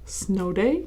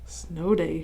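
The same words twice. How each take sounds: First: It sounds questioning, with a rise at the end. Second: It sounds plain, like a calm statement. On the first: The speaker wonders whether it is a snow day. "she asked. ... I wonder if it's snow day" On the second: The speaker thinks it may be a snow day. "she said. ... Maybe it is"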